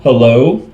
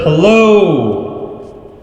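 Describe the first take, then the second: First: The voice has a doubled, shimmering chorus sound. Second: The voice has a spacious, echoing reverb. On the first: "which is chorus two" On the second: "which is an ambient reverb"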